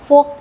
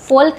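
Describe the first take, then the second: First: The L sound is silent. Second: The L sound is pronounced. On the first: The speaker calls it right. "फोक पढ़ते हैं" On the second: The speaker calls it wrong. "फोल्क नहीं पढ़ते हैं"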